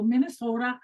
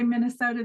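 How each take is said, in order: First: Imitated North Dakota accent on Minnesota; Fargo accent. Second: Said in the usual way. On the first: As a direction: say Minnesota with a playful Fargo lilt. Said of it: "North Dakota accent". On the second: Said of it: "doing a Fargo, North Dakota accent".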